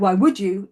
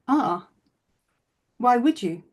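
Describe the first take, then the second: First: It sounds harsh and judgmental. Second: It sounds gentle and curious.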